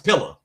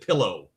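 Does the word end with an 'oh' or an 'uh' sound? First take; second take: uh; oh. First: The word ends with a reduced 'uh' vowel. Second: The word ends with a full 'oh' vowel. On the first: "There's no finishing the end of that" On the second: "they ain't a person from the South that's ever said pillow"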